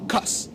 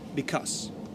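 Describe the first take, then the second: First: The word is shortened to one syllable. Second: The word is said in full, two syllables. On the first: "Incluso lo vas a escuchar así" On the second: "se pronuncia because"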